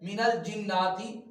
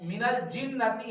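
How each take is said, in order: First: The vowel after the double n is long. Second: The vowel after the double n is short. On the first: The speaker calls it wrong. "मिनल जिन्नाती गलत है" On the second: The speaker calls it right. "मिनल जिन्नती है"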